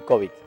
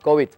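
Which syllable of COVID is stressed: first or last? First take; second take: first; last. First: The stress is on the first syllable. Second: The stress is on the last syllable. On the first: "Y si le ponemos, acento, tenemos que decir COVID. Sería una palabra grave" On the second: "Si no le ponemos acento, entonces hablamos de COVID"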